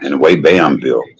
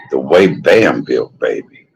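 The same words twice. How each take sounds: First: Said in the usual way. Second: "the way Bam built" drawn out slowly and relished; slow savoring. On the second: Shown as a demonstration. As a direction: linger on every word of "the way Bam built".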